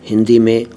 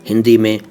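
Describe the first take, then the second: The two takes are said the same way.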